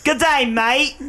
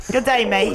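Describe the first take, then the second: First: Hammed-up Australian greeting; Australian accent. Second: Australian accent. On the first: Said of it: "do my Australian?". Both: Shown as a demonstration.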